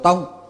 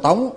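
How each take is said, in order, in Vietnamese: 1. Âm tiết "Tông" được đọc với thanh bằng. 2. Âm tiết "Tông" được đọc với thanh sắc. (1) "đọc ra là Trung tâm Hồ Tông" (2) "chứ không phải Hồ Tống"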